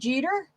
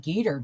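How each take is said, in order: First: The name begins with a soft J sound. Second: The name begins with a hard G sound.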